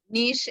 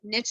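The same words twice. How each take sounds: First: The word is said in the European way. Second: The word is said in the American way. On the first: "Niche is European, Australian" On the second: "Niche is very American"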